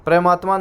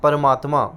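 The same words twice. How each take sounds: First: परमात्मा starting with a "pra" cluster; the faulty परमात्मा, p and r joined; mispronounced परमात्मा. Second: परमात्मा with "par" as its first syllable; careful परमात्मा, vowel between p and r; correct परमात्मा. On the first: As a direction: say परमात्मा wrongly as "pramaatma". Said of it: "नहीं". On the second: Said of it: "परमात्मा नहीं". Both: Shown as a demonstration.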